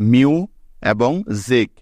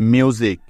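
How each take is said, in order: First: মিউ and জিক as two separate beats; pause between syllables. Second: Said in the usual way. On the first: Shown as a demonstration. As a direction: say মিউ, stop, then এবং জিক. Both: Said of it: "আমরা একবার থেমেছি".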